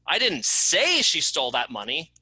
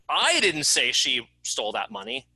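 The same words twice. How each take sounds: First: The word "say" is stressed. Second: The word "I" is stressed. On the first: It was written, not said. "I didn't say it, I wrote it" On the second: Someone else said it. "It wasn't me that said it, it was someone else"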